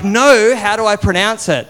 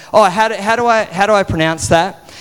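First: Raised, insistent teacher voice. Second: Hesitant, stumbling teacher question; start, falter and restart, puzzled by the name. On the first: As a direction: put on a teacher's voice, high and firm. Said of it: "like, teacher voice on". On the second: Teacher stumbles over his surname. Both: Retold or imitated.

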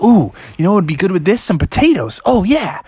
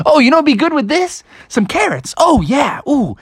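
First: A bit higher, fast, eager frog voice; Froggy voice. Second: Much higher, fast, giddy frog voice; excited Froggy. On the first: Froggy cooking, excited about his recipe. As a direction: chatter it out like a frog who just got an idea. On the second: Froggy adding carrots, more and more excited. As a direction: squeak it out, more thrilled with each idea. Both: Acted.

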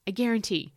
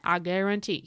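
First: Said in the usual way. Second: A hint of a bad Cajun accent; horrible Cajun accent. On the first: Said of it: "that was a horrible Cajun accent, but". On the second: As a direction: imitate a Cajun cook, badly. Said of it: "that was a horrible Cajun accent".

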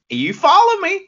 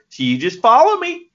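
First: Much higher, put-on Southern accent; a hammed-up Southern accent, pitched way up; Southern accent rallying cry. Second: Put-on Southern accent, a little louder and higher; rally the fans in a mock Southern accent; Southern preacher-style call, put on; Southern accent command. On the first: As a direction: call it out to the fans in mock Southern. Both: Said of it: "Southerners with that kind of accent".

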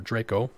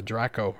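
First: Draco with a long a, like "DRAY-koh"; long-a pronunciation. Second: Draco with a short a, like "DRACK-oh"; short-a pronunciation. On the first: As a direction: say Draco with the vowel of "day". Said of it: "depending on how you say it". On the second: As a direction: say Draco with a flat a as in "track". Offers two ways to say it. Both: Shown as a demonstration.

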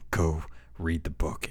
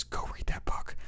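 First: Said in the usual way. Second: Soft whispered aside to the fans; hushed plea; whispered urging. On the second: Real, not acted. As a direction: whisper it like a secret tip. Urging fans to read book.

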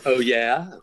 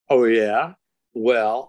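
First: "Oh, yeah" in a rough, self-mocking British accent, rising at the end; light British accent impression. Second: Self-admittedly bad British accent, a bit louder; imitating a sceptical Brit in a clumsy British accent; mock British accent. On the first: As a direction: drawl "Oh, yeah" like a doubtful Brit in a bad British accent. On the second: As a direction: put on a poor British voice to tease the audience. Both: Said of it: "I don't do a good British accent".

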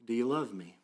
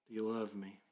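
First: Said in the usual way. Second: A softer second asking; softer repeat. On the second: Retold or imitated. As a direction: let the echo fall gentle and soft. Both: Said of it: "in some sense the word is".

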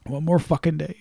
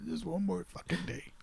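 First: Said in the usual way. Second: Very soft, almost under the breath; hushed anticipation. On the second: Real, not acted. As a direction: say it quietly, as if to yourself. Counting down to film release.

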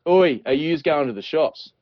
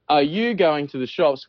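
First: Broad, slow northern Australian "oi"; tropical Australian accent. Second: Slow, properly enunciated southern Australian; southern Australian accent. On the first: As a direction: call out in casual tropical Aussie dialect. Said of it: "where we might say". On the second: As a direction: ask carefully in a refined southern Australian accent. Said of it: "think they're better than us in the tropics". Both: Shown as a demonstration.

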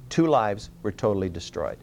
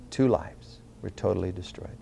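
First: Said in the usual way. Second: Softer, lower, grave echo; hushed solemn repeat. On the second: Real, not acted. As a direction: let the repeated phrase sink down quietly. Repeats the phrase for solemn effect.

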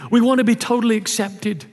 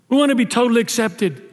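First: "We" hit hardest, rest falling; stress on WE. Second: "want" carries the weight, falling finish; stress on WANT. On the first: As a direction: lean on We, not on want. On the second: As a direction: press on want this time. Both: Shown as a demonstration.

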